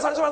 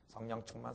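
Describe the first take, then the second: First: It is said loudly. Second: It is said quietly.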